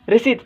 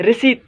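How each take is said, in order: Both takes have the same delivery.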